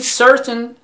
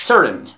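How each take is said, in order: First: Certain with the T sounded, "ser-tun". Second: Certain said "ser'n", the T swallowed; certain with dropped T. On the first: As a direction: pronounce the t in certain. (certain با تلفظ «ت») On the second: (certain با «ت» افتاده) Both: Shown as a demonstration. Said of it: "خوب دقت کنید".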